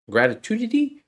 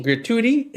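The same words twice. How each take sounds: First: "gratitude?" said with a high questioning rise, searching for the word; unsure "gratitude?" with a high rising pitch, groping for the right word; wrong word, unsure. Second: "Gratuity" said firmly with a falling tune and a laugh; "Gratuity" landed clearly, relieved laugh after it; corrected word. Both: Real, not acted.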